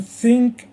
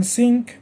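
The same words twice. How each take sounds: First: "think" with tongue between the teeth; stressed, higher "think" demonstrating TH; TH sound. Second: "think" said as "sink", tongue behind the teeth; stressed, higher "think" with S replacing TH; S sound. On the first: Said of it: "the tongue goes between your teeth". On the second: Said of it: "behind your teeth". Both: Shown as a demonstration.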